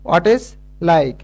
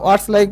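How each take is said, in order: First: 'What is' is said as two full words. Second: 'What is' is shortened to 'what's'. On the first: "হোয়াট ইজ like বা" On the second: "হোয়াটস like বললেও হচ্ছে"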